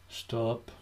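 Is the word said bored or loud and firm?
bored. It is said flatly, sounding bored.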